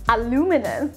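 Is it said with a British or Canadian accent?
Canadian. It is said the Canadian way, aluminum.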